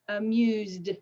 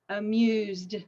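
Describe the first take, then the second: Both takes have the same delivery.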